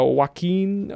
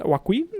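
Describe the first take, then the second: First: Said in the usual way. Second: "Joaquin" higher, as a question; second-guess "Joaquin" with a high questioning tone; unsure. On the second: Real, not acted. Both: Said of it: "I'm not sure".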